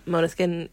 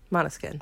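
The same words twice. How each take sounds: First: "Måneskin" said MOH-neh-skin, long o; "Måneskin" with an English "moh" first syllable; first pronunciation. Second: "Måneskin" said MAH-neh-skin, open ah; "Måneskin" with a short open "mah" start; corrected pronunciation. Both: Real, not acted.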